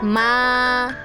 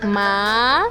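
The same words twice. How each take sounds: First: The pitch stays high and level. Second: The pitch rises from middle to high. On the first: It means mother. "First tone is the highest and flat tone" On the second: It means toad. "Second tone is a rising tone"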